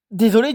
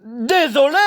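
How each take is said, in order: First: Said in the usual way. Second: Sharp bark, pitched much higher. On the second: Acted. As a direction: snap the word Désolé back at him. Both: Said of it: "aboya Harry".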